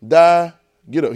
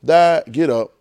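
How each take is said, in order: First: Slow, punched die, get up; preached punchline; emphatic. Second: Punched die, get up; repeated punchline; emphatic. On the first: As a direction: hammer each word. God recounting Jesus. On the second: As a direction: hit die then get up. Repeat of the line. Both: Acted.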